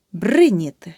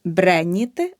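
First: Бриніти with a clear и after бр; correct vowel demo. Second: Бреніти with е after бр; the mistake бреніти, е where и belongs; wrong vowel demo. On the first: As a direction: say бриніти as "BRY-nity", first syllable punched. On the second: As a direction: say бреніти as "bre-nity". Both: Shown as a demonstration. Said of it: "Не".

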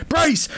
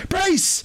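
First: High shouted command; yelled warning. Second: Even higher second shout; higher yelled warning. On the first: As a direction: bark it as impact comes. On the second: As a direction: push the repeat higher still. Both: Acted. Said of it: "Orion going".

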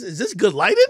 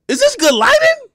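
First: Said in the usual way. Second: High, loud, squeaky mock of "Is this good lighting?"; mock fussy filmmaker. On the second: Shown as a demonstration. Mocking pros who worry about lighting, in a high squeaky voice. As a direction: ham up a fussy videographer. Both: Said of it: "mocking pro camera".

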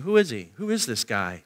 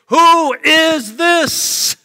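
First: Soft, low wondering question; quiet seeking. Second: Loud, high, drawn-out call; crowd's cry. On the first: Seekers in the crowd wondering about Jesus, quiet and low. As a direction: ask it low, as if privately puzzled. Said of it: "You see, they're seeking". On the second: Packed city asks about Jesus, loud drawn-out cry. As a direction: cry it out slowly for a whole city. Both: Acted.

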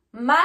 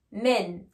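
First: "Man" with an open a, rising; teacher's model "Man", held up as the first of two; singular vowel. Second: "men" with a short e, lower pitch; teacher's model "men", dropping in pitch; plural vowel. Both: Shown as a demonstration. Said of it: "attention aussi à la prononciation".

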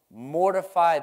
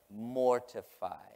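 First: Loud, punched MORTIFY, pitched high; booming pulpit attack on the word; forceful scripture reading. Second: "Mortify" drawn out slowly, syllable by syllable; slow, deliberate MOR-TI-FY; savoring the word. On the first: Acted. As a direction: hit "Mortify" hard like a command. Opens the verse with force. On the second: Real, not acted. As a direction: stretch out "Mortify" to relish it. Savours the word he loves.

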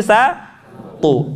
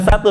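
First: SATU slow, pausing before a heavy T; thick to. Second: SATU with an ordinary light t, quick; plain satu. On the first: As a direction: raise the tongue and thicken the TU in SATU. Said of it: "terdengar tebal suaranya". ("satu" dengan t tebal) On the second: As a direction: say SATU as in everyday Indonesian. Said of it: "Bukan satu". ("satu" dengan t biasa) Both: Shown as a demonstration.

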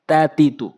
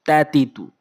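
The two takes are said the same way.

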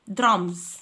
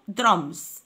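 No difference in how they are said.

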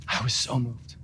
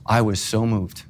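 First: Softly repeated. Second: Said in the usual way. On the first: Real, not acted.

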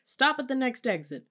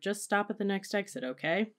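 First: High, loud, urgent order; shouted demand. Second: Higher but unraised appeal; pleading. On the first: Parent mid-fight in the car, shouted demand. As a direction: demand it at the top of an argument. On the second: Teenager leaning forward to dad, mild plea. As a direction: reason with an angry parent. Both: A narrator's reading.

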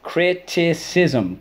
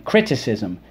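First: Criticism. high and very slow, each syllable spaced; slow drilled word. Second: Said in the usual way. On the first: Shown as a demonstration. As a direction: sing out Criticism. slowly for the class. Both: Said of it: "let's go".

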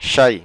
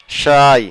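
First: শাই said with a short, quick vowel, meaning something; শাই spoken briefly, not stretched. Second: শাই said with its vowel drawn out long, meaning tea; শাই held long and slow. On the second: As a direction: stretch the vowel of শাই slowly. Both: Shown as a demonstration. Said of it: "একটু দীর্ঘ উচ্চারণ হলে হবে চা".

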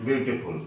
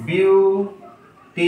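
First: Said in the usual way. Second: beautiful stretched into three separate, higher-pitched syllables. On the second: Shown as a demonstration. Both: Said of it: "একের অধিক উচ্চারণ আছে".

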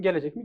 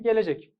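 First: "Gelecek mi?" asked with a rising question tune; asking question. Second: "Gelecek." said as a falling, final answer; answering firmly. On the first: Teacher quizzing students on the predicate, rising question. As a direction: lift the end of "Gelecek mi?" as a real question. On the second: Teacher answering her own question for students, falling statement. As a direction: drop the tune at the end of "Gelecek." to settle it. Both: Shown as a demonstration. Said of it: "ögeler üzerinden sorarsa işte yüklem dersin".

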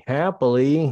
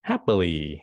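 First: Happy lift. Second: Said in the usual way. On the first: Shown as a demonstration. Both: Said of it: "Còn ngược lại".

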